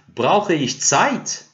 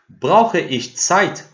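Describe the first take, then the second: First: The pitch rises at the end. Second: The pitch stays level to the end.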